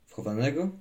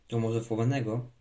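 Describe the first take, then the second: First: Questioning echo, rising clearly at the end; pondering question. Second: Lightly playful question, falling at the end; playful suggestion. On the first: Boy wonders about his friend's suggestion, pondering question. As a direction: turn it over doubtfully, voice lifting. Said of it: "zastanawiał się chłopiec". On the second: Chubek suggests hide-and-seek to the boy, mildly playful. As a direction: float the idea with a touch of mischief. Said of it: "zapytał Chubek figlarnie". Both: A narrator's reading.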